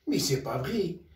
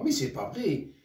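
First: مي سي با فغي said again through a laugh; amused repeat. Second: Said in the usual way. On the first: Real, not acted. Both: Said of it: "repeated with a laugh".

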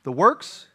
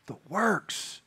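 First: "The works?" asked with a rising question tune; prompting the congregation, "The works?" lifted like a question; asking the crowd. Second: "The works." said softer as a settled answer; answering his own question, "The works." quietly confirmed; giving the answer. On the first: Preacher quizzing his church, rising tune on "The works?". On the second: Preacher answers the congregation, soft settled "The works.". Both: Shown as a demonstration.

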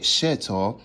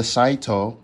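First: "shito" with a short e sound, SHEH-toh; local pronunciation. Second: "shaito" with a long eye sound, SHY-toh; own pronunciation. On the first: Traveler showing how locals say the sauce, local pronunciation. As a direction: say "shito" with first syllable like sheh. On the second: Traveler naming the sauce before correcting it, own pronunciation. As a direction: say "shaito" with first syllable like shy. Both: Shown as a demonstration. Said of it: "but they say it shito".

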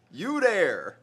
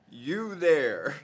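First: You there said higher and louder in mock German command; German accent. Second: Said in the usual way. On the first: Shown as a demonstration. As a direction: bark You there like a guard. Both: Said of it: "it means".

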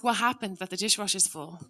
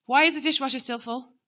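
First: Calm curious ask. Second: Sharp, higher, louder accusation; accusing demand. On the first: Parent asking family calmly about the dishwasher, curious. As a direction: ask gently, wanting to understand. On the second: Parent scolding family about the full dishwasher, accusing. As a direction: snap the blaming question. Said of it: "instead of saying". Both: Shown as a demonstration.

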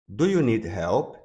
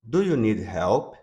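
No difference in how they are said.

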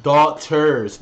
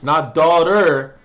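First: "Daughters" louder with a clear final s; stress on the s. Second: "daughter" slow and loud, singular, as the wrong name; mock wrong version. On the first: Correcting viewers on the band name, emphatic. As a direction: hit the plural s in "Daughters". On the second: Correcting viewers, slow scornful wrong form. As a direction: drag out "daughter" as the mistake. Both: Shown as a demonstration.

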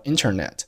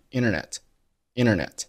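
First: Said in the usual way. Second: "internet" said as "innernet", the t after n dropped; "internet" with n sliding into the vowel, no t sound; internet without the t. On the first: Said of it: "再比如说internet". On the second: Shown as a demonstration. Teacher showing learners the American "internet" with no t. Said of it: "很多美国人会读成internet".

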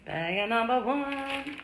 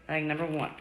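First: Slow, higher game-show reveal; drawn-out announcement. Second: Said in the usual way. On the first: Acted. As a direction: stretch it out like a prize reveal.

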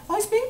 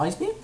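First: Very high rising query; small, high-pitched asking; hopeful question. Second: Said in the usual way. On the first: Real, not acted. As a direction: lift it into a squeaky question. Hopeful repeat of move.

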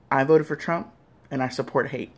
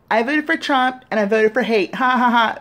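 First: Said in the usual way. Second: High, loud, gleeful with a laugh at the end; smiling mock confession. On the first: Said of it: "And I want you to say". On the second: Shown as a demonstration. Demoing for Trump voters the happy admission he wants. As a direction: say it grinning like you're proud. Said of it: "say it with a big smile on your face".

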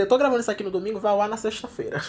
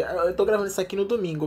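First: Rushed, much faster re-say of "eu tô gravando isso aqui no domingo"; hurried self-correction of "eu tô gravando isso aqui no domingo". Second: Said in the usual way. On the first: Real, not acted. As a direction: blurt "eu tô gravando isso aqui no domingo" out quickly to fix the slip. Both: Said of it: "quer dizer".

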